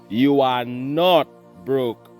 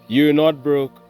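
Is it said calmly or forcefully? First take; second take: forcefully; calmly. First: It is said with force and power. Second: It is said in a plain, calm way.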